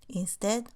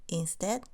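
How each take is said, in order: Both takes have the same delivery.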